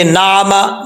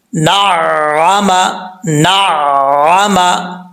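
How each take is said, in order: First: نعمہ said quickly, the shadda skipped, short light na-ma; quick wrong نعمہ with no held doubled sound; wrong reading without doubling. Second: نعمہ drawn out very slowly, the doubled sound held; correct recitation with shadda. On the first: Teacher to students, showing the common mistake, quick wrong نعمہ. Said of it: "نعمہ تو یہ غلط ہو جائے گا". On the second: Teacher to students, showing the right reading, slow chanted نعمہ. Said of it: "ہم نے شد کو بھی پڑھنا ہے". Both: Shown as a demonstration.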